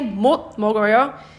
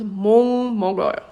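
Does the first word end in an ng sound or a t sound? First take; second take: t sound; ng sound. First: The first word ends in a t sound. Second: The first word ends in an ng sound. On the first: "if you say 못 먹어요, it's okay" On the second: "it becomes 몽 먹어요"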